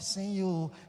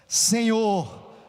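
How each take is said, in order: First: It is said weakly, without force. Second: It is said loudly, with force.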